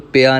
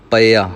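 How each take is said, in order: First: ਪਿਆ run together as pi-aa. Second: ਪਿਆ as pa-i-aa, bare p then i; open first syllable. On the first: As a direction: put the short i straight on the p in ਪਿਆ. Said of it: "ਇਹਨੂੰ ਪਿਆ ਨਹੀਂ ਕਹਿਣਾ". (ਪਿਆ ਵਿੱਚ ਪੱਪੇ ਨੂੰ ਸਿਹਾਰੀ ਲਾ ਕੇ) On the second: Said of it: "ਪੱਪੇ ਨੂੰ ਮੁਕਤਾ ਰੱਖਣਾ ਹੈ". (ਪਿਆ ਵਿੱਚ ਪੱਪਾ ਮੁਕਤਾ, ਈੜੀ ਨੂੰ ਸਿਹਾਰੀ) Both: Shown as a demonstration.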